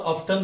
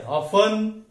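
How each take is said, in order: First: ऑफ्टन as OF-tun; audible t in ऑफ्टन; T sounded. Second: ऑफन as OF-un; silent T. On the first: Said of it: "दोनों भी सही है". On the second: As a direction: say ऑफन with the t dropped. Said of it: "silent है". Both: Shown as a demonstration.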